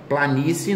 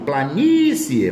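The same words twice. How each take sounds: First: Said in the usual way. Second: "Planície" with a long, drawn-out NÍ; slow down and hold the NÍ in "Planície"; stressed syllable stretched. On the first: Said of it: "não". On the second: Shown as a demonstration. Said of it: "paroxítona terminada de tom crescente". ("Planície" com o NÍ tônico alongado)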